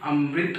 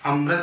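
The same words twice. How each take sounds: First: The second syllable has a clear 'ri' sound. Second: The second syllable lacks a clear 'ri' sound. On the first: The speaker calls it right. "ये री की मात्रा है" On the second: The speaker calls it wrong. "नहीं"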